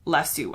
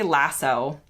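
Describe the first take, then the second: First: The word is said the British way, ending oo. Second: The word is said the American way. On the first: "British people, I guess, say lasso" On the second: "Americans say lasso"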